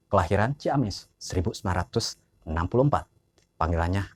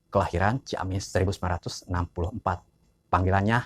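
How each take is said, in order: Both takes have the same delivery.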